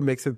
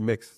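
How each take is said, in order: First: The name ends with a sounded final syllable. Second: The name ends right after the x sound. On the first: The speaker calls it wrong. "ça fait même pas Mexed" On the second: The speaker calls it right. "pour moi, c'est Mex"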